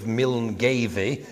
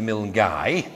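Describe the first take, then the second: First: First Milngavie said as miln-GAY-vee; spelling pronunciation. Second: Second Milngavie said as mill-GUY; local pronunciation. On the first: Showing a Glasgow village's spelling, Milngavie pronounced miln-GAY-vee. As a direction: read Milngavie as written, "Miln-gayvee". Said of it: "asking the way to Milngavie, they will laugh". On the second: Correcting the village's name, Milngavie pronounced miln-GUY. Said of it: "is actually Milngavie". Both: Shown as a demonstration.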